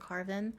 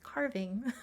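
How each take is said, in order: First: The ending is said without the g sound. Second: The ending is said with a full g sound. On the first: "pronounce it as pumpkin carving. It I want to drop the G so badly" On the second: "to actually pronounce the word as carving"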